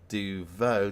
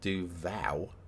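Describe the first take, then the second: First: The second syllable is said as 'vo'. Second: The second syllable is said as 'vow'. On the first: The speaker calls it right. "It's like do vo" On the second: The speaker calls it wrong. "not do vow"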